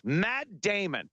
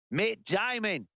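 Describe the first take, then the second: First: Said in the usual way. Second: Mock Aussie vowels on "Matt Damon"; put-on Australian accent. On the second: Aussie accent after Australia is named.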